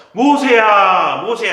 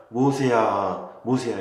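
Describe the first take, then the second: First: Loud, slow, much higher call of Moses' name; booming call. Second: Gentle call. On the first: Teacher booming God's call to Moses from the bush. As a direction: call out across the mountain, stretched and loud. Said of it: "이렇게 불렀을까?". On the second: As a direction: call 모세야 gently, drawn out. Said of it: "이렇게 부드럽게 부르셨을까?". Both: Shown as a demonstration.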